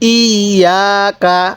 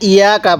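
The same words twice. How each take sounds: First: The 'y' sound is held and doubled. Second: The 'y' sound is short and single. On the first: The speaker calls it right. "এখানে কিভাবে পড়তে হবে?" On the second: The speaker calls it wrong. "এই তাসদিদটাকে বাদ দিয়ে দেই"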